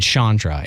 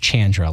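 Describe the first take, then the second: First: The first syllable is not said like 'Chan'. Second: The first syllable is said like 'Chan'. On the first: The speaker calls it wrong. "when I talked to you earlier, I said Chandra" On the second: The speaker calls it right. "It's Chandra"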